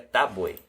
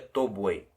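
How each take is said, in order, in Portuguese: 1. A primeira vogal soa como um 'a'. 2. A primeira vogal é um 'o' pleno. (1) "se pronuncia тобой" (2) "não se pronuncia тобой"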